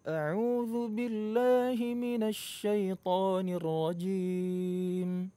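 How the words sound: It is said with a small, muffled mouth opening. The speaker calls it wrong. "buka mulutnya itu kecil banget ... itu suaranya jadi nggak jelas"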